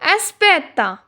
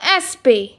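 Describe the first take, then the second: First: The word is said with all three syllables. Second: The final syllable is dropped from the word. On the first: This is the textbook form. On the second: This is how natives say it casually.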